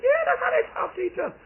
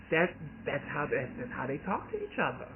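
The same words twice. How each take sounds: First: High, fast, loud exasperated shout; aunt shouting to her nephew, high, fast and loud; aunt's exasperated shout. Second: Said in the usual way. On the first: Retold or imitated. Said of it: "She said". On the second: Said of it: "she's like".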